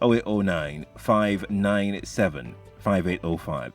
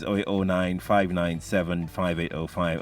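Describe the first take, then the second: First: The number is read slowly. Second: The number is read at normal speed.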